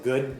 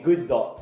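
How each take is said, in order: First: The word ends cleanly on the d sound. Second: An extra vowel follows the final d sound. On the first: The speaker calls it right. "as opposed to good" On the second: The speaker calls it wrong. "if they use katakana pronunciation, like if you're using good dot"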